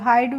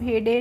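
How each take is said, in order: First: The vowel is an 'eye' sound. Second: The vowel is a plain 'eh' sound. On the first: The speaker calls it right. "हाइड पढ़ते हैं" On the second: The speaker calls it wrong. "हेडे नहीं पढ़ते हैं"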